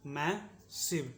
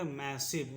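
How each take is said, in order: First: "massive" very slowly, a long gap after मै; slow syllable demonstration. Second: Said in the usual way. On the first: Shown as a demonstration. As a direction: split "massive" into मै, pause, सिव. शब्द तोड़कर दोहराना. ("Massive" को बहुत धीरे, मै और सिव अलग करके)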